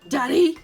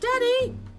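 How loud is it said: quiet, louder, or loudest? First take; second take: louder; quiet. First: It is said a little louder. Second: It is said at a normal, quiet level.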